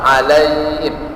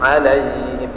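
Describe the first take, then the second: No difference in how they are said.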